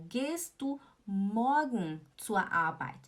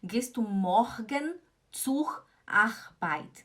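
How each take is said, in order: First: Slow, MORGEN, ZUR, ARBEIT with Rs melted into "ah"; no hard R in morgen, zur, Arbeit; careful model German, vowel-like R in "morgen zur Arbeit"; standard German pronunciation. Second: Slow, MORGEN, ZUR, ARBEIT with harsh throaty Rs; wrong-example "morgen zur Arbeit" with hard Rs; mixed Swiss-German R. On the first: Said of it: "você fala". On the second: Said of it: "Não fala assim". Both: Shown as a demonstration.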